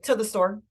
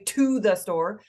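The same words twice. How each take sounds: First: The word 'to' is reduced and blended in. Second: The word 'to' has a full, clear vowel. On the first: The speaker calls it right. "I say" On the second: The speaker calls it wrong. "I don't say"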